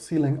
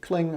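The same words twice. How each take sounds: First: The C is said as a letter, then lang. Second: It is said as one syllable, klang. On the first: "other C-Lang" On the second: "some people pronounce it Clang"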